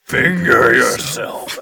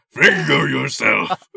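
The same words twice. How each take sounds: First: Slow, louder mock demon command. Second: Slow, louder put-on command; silly voice. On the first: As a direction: drag it out like a demon. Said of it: "you a demon". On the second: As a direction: ham up the command with a voice. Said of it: "Just do a voice".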